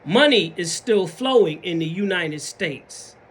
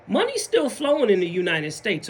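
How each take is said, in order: First: "Money is still flowing" slow and deliberate; slow, weighty stress on "Money" and "flowing"; emphatic repeat. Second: Said in the usual way. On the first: Shown as a demonstration. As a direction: spell out each word of "Money is still flowing". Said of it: "I'm gonna say it twice". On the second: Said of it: "Let me say that one more time".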